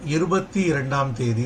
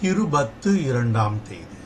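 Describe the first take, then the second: First: The first word ends in an 'ee' vowel. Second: The first word ends in an 'oo' vowel. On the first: The speaker calls it wrong. "இட்ஸ் wrong" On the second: The speaker calls it right.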